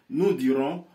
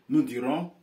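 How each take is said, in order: Both takes have the same delivery.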